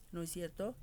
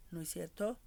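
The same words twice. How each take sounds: The two takes are said the same way.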